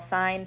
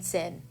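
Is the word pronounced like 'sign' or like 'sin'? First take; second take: sign; sin. First: The vowel is long, rhyming with 'line'. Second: The vowel is short, rhyming with 'pin'. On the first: The speaker calls it right. "It is sine" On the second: The speaker calls it wrong. "call sine sin"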